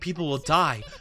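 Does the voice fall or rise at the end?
fall. The voice falls at the end like a statement. One character states a piece of information.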